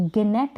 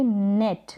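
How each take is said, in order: First: "गनेट" with a hard g before the n; wrong, sounded g. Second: "नेट" starting straight on the n; silent g. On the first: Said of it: "अब गनेट नहीं बोलेंगे". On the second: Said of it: "अब इसको हम बोलेंगे". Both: Shown as a demonstration.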